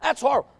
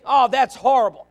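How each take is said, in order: First: Softer echo of the shock. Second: Loud, sharp imitation of a shocked listener; exaggerated gasp of disapproval; mock shock. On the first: Retold or imitated. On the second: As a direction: play up the outrage. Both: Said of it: "See, you may think".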